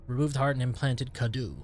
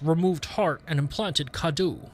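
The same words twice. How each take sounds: First: It is read in his own normal voice. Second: It is read in a put-on Heisenberg voice.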